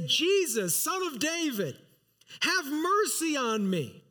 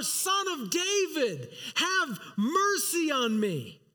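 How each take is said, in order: First: A mild retold plea, raised a little; crying out for mercy. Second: Higher, slower, pleading, near a cry; crying out all the more. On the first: Blind beggar calling to Jesus by the road, mild raised plea. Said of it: "he began to cry out and say". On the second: Retold or imitated. Blind beggar crying out over the rebuking crowd, slow pleading cry. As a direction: beg harder, drawing the words out. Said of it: "cried out all the more".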